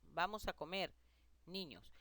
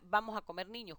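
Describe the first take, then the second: First: There is a short pause before 'niños'. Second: It runs on with no pause before 'niños'.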